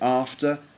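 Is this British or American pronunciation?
British. The first vowel is a long open 'ah' sound. "We'd say after"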